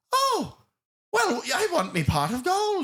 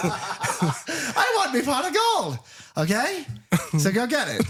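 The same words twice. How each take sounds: First: High, hammed-up leprechaun Irish brogue; imitating a wobbly Irish accent; mock Irish accent. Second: Mock Irish accent. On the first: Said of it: "his accent is all over the place". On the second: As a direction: imitate a hammy Irish leprechaun, laughing. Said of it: "It's like".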